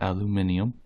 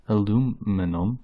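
First: Aluminium as al-yoo-MIN-ee-um; British-style aluminium. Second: Aluminum as uh-LOO-mi-num; American aluminum. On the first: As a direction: say aluminium with the extra i, stressed on MIN. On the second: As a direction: say aluminum in four syllables, stressed on LOO. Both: Shown as a demonstration. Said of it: "not aluminium".

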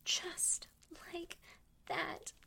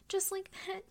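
First: Broken whisper. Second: Pressed out loud and urgent; urgent louder moan. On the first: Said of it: "same words, broken up". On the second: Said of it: "same words, full voice". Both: Acted.

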